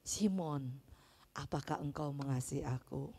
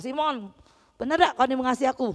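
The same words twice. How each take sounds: First: Much softer, lower gentle question; Jesus asking Peter softly and lovingly; full of love. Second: Fast, sharp challenge in local dialect; Jesus hammed up as scolding Peter fast; mock scolding Jesus. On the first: A narrator's reading. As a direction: ask him tenderly, almost hushed. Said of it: "dengan penuh kasih". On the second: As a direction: needle him like a scolding friend. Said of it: "Yesus tidak marah".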